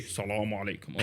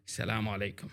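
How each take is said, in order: First: Lower, soft salaam with a different voice; another greeting variation. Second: Low, soft salaam greeting; greeting variation. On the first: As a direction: give the salaam a different low voice. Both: Retold or imitated. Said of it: "different variations of salam".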